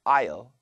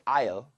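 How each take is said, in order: First: It is said with a full, careful vowel. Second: It is said with a full, careful vowel.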